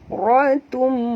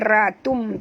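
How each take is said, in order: First: The r sound is heavy and thick. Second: The r sound is light and thin. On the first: The speaker calls it right. "tapi baca ra ratum" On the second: The speaker calls it wrong. "jangan baca ratum"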